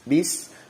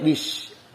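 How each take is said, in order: First: The word ends with a clear s sound. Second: The word ends with an sh sound. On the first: The speaker calls it right. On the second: The speaker calls it wrong. "jangan sampai bish"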